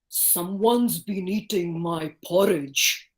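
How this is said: The voice is big, deep and heavy. A large, strong character is speaking. "big, heavy voice"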